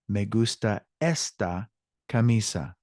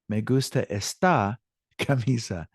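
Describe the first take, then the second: First: The stress in esta is on the first syllable. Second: The stress in esta is on the second syllable. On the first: The speaker calls it right. "let me repeat the correct way" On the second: The speaker calls it wrong. "that sounds quirky"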